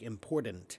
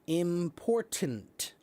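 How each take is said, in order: First: The first T sounds soft, like a D. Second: Both T sounds are said as hard T's. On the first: The speaker calls it wrong. "the first T will be a soft T. It's more like a, soft, uh, uh, a D" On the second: The speaker calls it right. "That is the way to say the word. With two hard T's"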